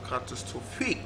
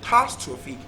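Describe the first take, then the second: First: The stress is on the last syllable. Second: The stress is on the second syllable. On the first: "last syllable" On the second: "second syllable"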